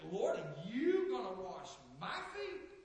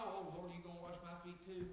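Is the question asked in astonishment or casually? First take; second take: astonishment; casually. First: It is asked emphatically, in disbelief. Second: It is asked in a common, casual way.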